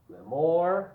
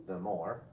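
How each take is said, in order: First: Said in the usual way. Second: Second the more dropped lower and softer; softer echo. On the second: Shown as a demonstration. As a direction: echo it quietly. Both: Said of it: "you can also make it like this".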